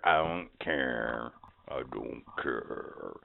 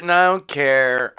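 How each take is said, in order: First: Slow, lower, fading echo of the line; echo effect. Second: Said in the usual way. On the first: Shown as a demonstration. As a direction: let it fade out like an echo. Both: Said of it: "put some kind of sound effect behind that".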